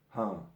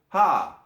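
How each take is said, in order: First: The shout is quiet and held back. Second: The shout is at a moderate volume. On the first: The speaker calls it wrong. "because the sound is suppressed" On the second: The speaker calls it right. "try to find the balance"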